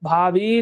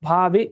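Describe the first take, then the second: First: The final vowel is held long. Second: The final vowel is kept short. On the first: "ದೀರ್ಘ ಅಲ್ವಾ" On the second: "ಹ್ರಸ್ವ"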